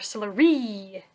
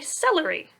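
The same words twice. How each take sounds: First: The stress is on the third syllable. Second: The stress is on the first syllable. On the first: The speaker calls it wrong. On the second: The speaker calls it right.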